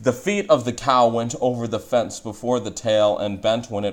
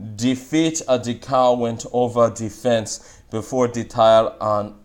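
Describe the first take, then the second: First: It is said in standard English. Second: It is said in Jamaican English.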